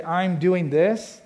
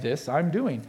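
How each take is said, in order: First: Said in the usual way. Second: "this" drawn out up front, then "I'm doing"; THIS fronted for emphasis. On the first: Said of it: "Where we would say". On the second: Shown as a demonstration. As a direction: set "this" apart first, like inverted word order. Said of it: "based on what they wanna emphasize".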